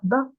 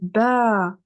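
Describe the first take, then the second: First: The vowel is short and clipped. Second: The vowel is drawn out long. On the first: The speaker calls it wrong. "je prononce pas ba" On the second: The speaker calls it right. "je dis ba"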